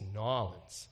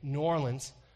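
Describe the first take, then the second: First: It is said the clipped Louisiana local way. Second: It is said in a general, full way.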